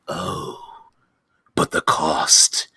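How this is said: It is said in a grand, ominous, dramatic voice.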